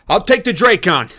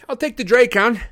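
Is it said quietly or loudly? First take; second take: loudly; quietly. First: It is yelled loudly and forcefully. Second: It is said in a small, timid squeak.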